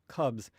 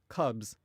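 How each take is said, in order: No difference in how they are said.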